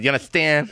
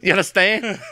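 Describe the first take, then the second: First: It is said with a slight lisp. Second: It is said plainly, without a lisp.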